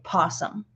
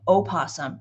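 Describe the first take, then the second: First: The word starts directly with a P sound. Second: The word starts with a vowel sound. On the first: "you can just still say possum" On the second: "spelt with the O"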